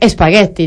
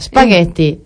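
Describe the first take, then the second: First: The word starts with an added e vowel. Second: The word starts directly with the s sound. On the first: The speaker calls it wrong. "ponéis la E siempre" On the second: The speaker calls it right. "quita la E"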